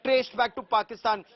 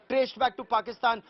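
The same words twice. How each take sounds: The two takes are said the same way.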